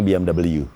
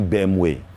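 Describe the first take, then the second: First: The letters are spelled out the American way. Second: The letters are spelled out the German way. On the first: "orang Amerika bilangnya" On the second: "Kalau orang Jerman bilangnya"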